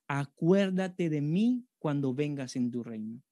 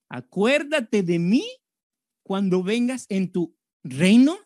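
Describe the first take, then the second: First: It is read at normal speed. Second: It is read slowly and deliberately.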